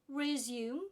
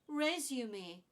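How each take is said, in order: First: The word is said with two syllables. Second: The word is said with three syllables. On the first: The speaker calls it wrong. "It's not resume" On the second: The speaker calls it right. "This one is a resume. Three syllables again"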